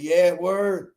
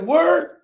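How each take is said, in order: First: Low, settled "word"; confirming. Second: Higher-pitched, curious "Word?"; questioning. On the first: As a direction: drop "word" as a cool confirmation. Friend confirms in retold dialogue. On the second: Acted surprised question to friend. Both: Retold or imitated.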